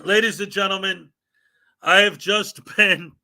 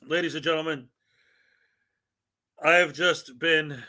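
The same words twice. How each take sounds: First: Mock-formal announcement cracking up mid-line; a grand opener that dissolves into giggles; breaking into laughter. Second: Deadpan grave opener, no laughing; mock-serious announcement. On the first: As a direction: try to announce grandly but laugh through it. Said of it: "really hard not to laugh and talk like this is for real". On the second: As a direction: hold it together like a real news bulletin. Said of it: "talk like this is for real". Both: Shown as a demonstration.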